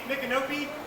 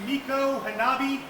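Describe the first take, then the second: First: The name is said as one run-together word. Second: The name is said as two separate words. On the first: The simplified form adopted by outsiders. The speaker calls it wrong. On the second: The original form in its own language. The speaker calls it right.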